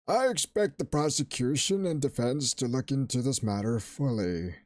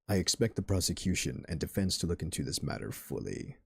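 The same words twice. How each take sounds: First: It is said in an old, wrinkly voice. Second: It is said in a deep voice.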